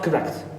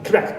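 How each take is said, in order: First: The first vowel is fully pronounced. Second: The first vowel is dropped. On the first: The speaker calls it wrong. "not correct" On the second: The speaker calls it right. "the shva, the first syllable... that's why it is omitted"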